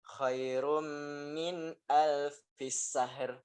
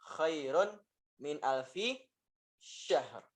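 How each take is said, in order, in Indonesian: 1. Kata terakhir dimulai dengan bunyi s yang tipis. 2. Kata terakhir dimulai dengan bunyi sh yang tebal. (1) "Sinnya tipis" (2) "Dengan shin yang tebal"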